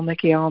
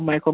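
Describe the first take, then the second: First: It ends with a clear 'el' syllable. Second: It is said the usual English way. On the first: "especially when with the pronunciation of the L part of it" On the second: "when we say, you know, Michael"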